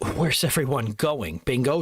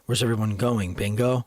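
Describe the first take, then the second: First: It is delivered in a light, comedic way. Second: It is delivered in a plain, serious way. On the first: "Trying to make more of like a comedic relief" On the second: "He was like"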